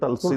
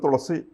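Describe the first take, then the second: First: Said the American way, as tal-see. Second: Said the Malayalam way, as thu-la-si. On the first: "American pronunciation തൽസി എന്നാണെന്ന് തോന്നുന്നു" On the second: "നമ്മുടെ മലയാളത്തിൽ തുളസി എന്ന് പറയുന്നത്"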